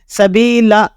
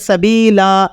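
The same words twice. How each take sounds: First: The final vowel is cut short. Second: The final vowel is held for a normal length. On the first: The speaker calls it wrong. "या आप इसे कम खींचे, यूं पढ़े" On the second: The speaker calls it right. "एक अलिफ तक इसे खींच कर पढ़ते हैं"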